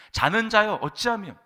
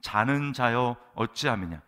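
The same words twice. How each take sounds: First: Much louder, higher cry of reproach; sharp rebuke. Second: Loud, slow call to a sleeper; captain's rebuke. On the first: Pagan captain reproaching sleeping Jonah, high loud rebuke. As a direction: rebuke the sleeper at raised pitch and volume. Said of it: "요나를 책망합니다". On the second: Ship's captain waking sleeping Jonah, loud and drawn-out. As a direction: rouse the sleeper in a drawn-out, raised voice. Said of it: "선장이 그에게 가서 이르되". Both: Acted.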